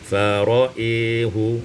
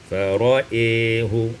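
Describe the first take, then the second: First: The vowel after the hamza is tilted toward e. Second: The vowel after the hamza is tilted toward e.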